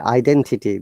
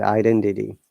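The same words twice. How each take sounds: First: The T is a crisp, strong T. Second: The T is flapped and sounds like D. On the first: "Similarly, identity" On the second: "they'll say identity"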